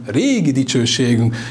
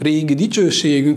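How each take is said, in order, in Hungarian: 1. Az első szó hangzik a legmagasabban. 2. A második szó hangzik a legmagasabban. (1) "hanem régi dicsőségünk. És a magassággal jelzem azt, hogy a szószerkezetben még a fő hangsúly a régi" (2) "nem azt mondom"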